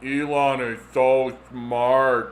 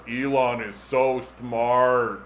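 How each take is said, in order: First: Slow, low, trance-like echo; hypnotized fan, dazed. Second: Slow, lower, dazed repeating; hypnotized fan. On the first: Hypnotized phone user repeats praise, slow trance voice. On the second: Fan hypnotized by phone apps, slow dazed chant. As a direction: drone it like someone under a spell. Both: Retold or imitated. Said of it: "making people go, like".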